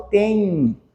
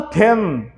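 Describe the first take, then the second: First: "tem" as a soft nasal "tẽi" glide; nasal diphthong. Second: "ten" closed on a pronounced N; hard final N. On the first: Teacher showing what is really said, gliding nasal "tem". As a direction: let "tem" glide nasally into I, mouth open. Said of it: "eu falo tem". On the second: Teacher showing what is not said, "ten" with hard N. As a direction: shut "ten" with the tongue on N. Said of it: "aqui eu não falo ten". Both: Shown as a demonstration.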